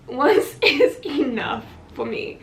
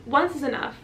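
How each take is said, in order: First: "Once is enough" slow, loud, word by word; emphatic repeat. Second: Said in the usual way. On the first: Real, not acted. Patient deciding against repeats, slow emphatic "Once is enough". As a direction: space out "Once is enough" firmly and louder.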